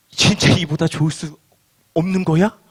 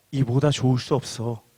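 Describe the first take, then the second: First: Hesitant, mildly disbelieving question; doubtful question. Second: Low, soft, certain statement with falling end; clear assertion. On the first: Believers wondering at Jesus' claim, mildly doubtful. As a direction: pause midway, then end on a questioning tone. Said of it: "라는 생각이 든다는 것입니다". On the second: Jesus telling listeners of their blessing, quietly certain. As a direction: state it quietly as settled fact. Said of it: "분명하게 말씀합니다". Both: Acted.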